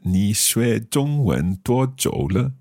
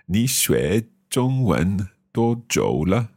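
First: The first-tone syllables are pitched higher. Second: The first-tone syllables are pitched lower. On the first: The speaker calls it right. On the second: The speaker calls it wrong.

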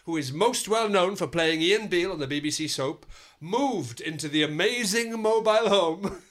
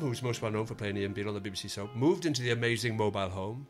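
First: It is read in a light, upbeat tone. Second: It is read in a calm, sombre tone.

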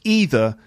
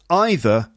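First: It uses the pronunciation considered more American. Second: It uses the pronunciation considered more British. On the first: "and that either is more American" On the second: "some people say that either is more British"

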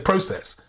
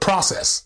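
First: It is said with a non-American pronunciation. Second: It is said with an American pronunciation. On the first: This is how the speaker's own group says it. "We say process" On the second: This is how the other group says it. "so it's little things like process"

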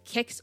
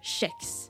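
First: The word begins with a hard k sound. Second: The word begins with a soft sh sound. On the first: "either with a K sound" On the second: "or a sh"

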